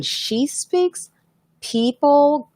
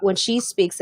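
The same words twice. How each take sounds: First: Slow, higher, self-admittedly bad Irish accent. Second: Said in the usual way. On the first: Telling the chat about Lois's charm in a slow, bad Irish accent. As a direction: drag it out in a rough Irish accent, pitched up. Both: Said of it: "I know I'm doing her accent really bad".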